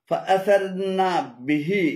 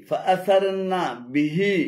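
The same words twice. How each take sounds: The two takes are said the same way.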